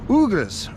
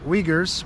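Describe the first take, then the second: First: "Uyghurs" said as OO-gurs, no W sound; "Uyghurs" starting with an OO vowel, local way; local pronunciation. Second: "Uyghurs" said as WEE-gurs; "Uyghurs" with a W at the start, American way; American pronunciation. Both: Shown as a demonstration. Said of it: "in America we know 'em as the Uyghurs".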